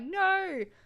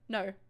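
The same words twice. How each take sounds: First: It is said loudly and emphatically. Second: It is said calmly and quietly.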